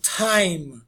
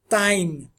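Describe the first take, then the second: First: The t has a puff of air. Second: The t has no puff of air. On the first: The speaker calls it right. "essa aspiração seria esse Hzinho aqui" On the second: The speaker calls it wrong. "nós brasileiros tendemos a pronunciar isso time"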